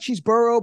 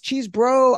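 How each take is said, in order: First: The name is said with an extra middle vowel. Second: The name is said without an extra middle vowel. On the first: The speaker calls it wrong. "I like Cheeseboro, but that's not how you say it" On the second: The speaker calls it right. "I know it's Cheesebro"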